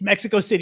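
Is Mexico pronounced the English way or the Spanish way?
English. Mexico is pronounced with plain English sounds. The speaker calls it right. "it's Mexico City"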